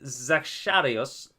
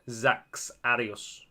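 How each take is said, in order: First: The X is said as a soft sh sound. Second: The X is said as a hard ks sound. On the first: "like it would be in Aztec" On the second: "more of a harder X"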